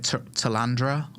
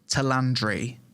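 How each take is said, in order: First: The name ends with an 'ah' sound. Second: The name ends with an 'ee' sound. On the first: The speaker calls it wrong. "I've been pronouncing it completely wrong every time" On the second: The speaker calls it right. "So it's pronounced Talandri"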